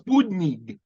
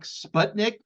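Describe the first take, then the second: First: It is said with a native Russian pronunciation. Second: It is said with an American English pronunciation. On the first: The speaker calls it right. "it's Sputnik" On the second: The speaker calls it wrong. "you're pronouncing it so poorly"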